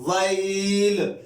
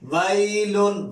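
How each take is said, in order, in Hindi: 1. शब्द 'l' की आवाज़ पर अचानक खत्म होता है। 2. शब्द नासिक 'un' की आवाज़ पर खत्म होता है।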